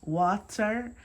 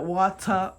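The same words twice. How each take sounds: First: Said in the usual way. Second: "water" in a Jamaican accent, ending in an open "-ah"; own Caribbean-style accent. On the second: Shown as a demonstration. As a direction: say "water" the Jamaican way, final r dropped. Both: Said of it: "that's my accent".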